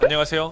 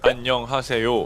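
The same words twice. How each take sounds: First: It is said quickly with loose, blurred syllables. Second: It is said slowly with each syllable articulated. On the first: This is the habitual everyday way of speaking. "하던 걸" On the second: This is the practiced way for better delivery. "하려니 어색할 수밖에 없습니다"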